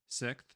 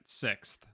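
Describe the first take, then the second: First: The final th sound is slurred or dropped. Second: The final th sound is clearly pronounced. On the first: "bit of a country way of saying it" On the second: "even I'm saying it right"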